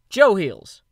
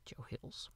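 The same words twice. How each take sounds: First: The name is said loudly and energetically. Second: The name is said quietly and understated.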